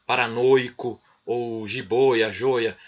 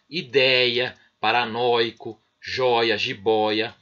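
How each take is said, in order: First: "paranoico", "jiboia", "joia" with a closed ô; mock closed "jiboia", the ô tight and stressed; wrong closed vowel. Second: "ideia", "paranoico", "joia", "jiboia" with open é and ó; open vowel pronunciation. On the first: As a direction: say "joia" with a closed ô, the pronunciation nobody uses. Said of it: "Ninguém vai passar a falar". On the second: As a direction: say "joia" with an open ó, as before the reform. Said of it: "a pronúncia continua a mesma". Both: Shown as a demonstration.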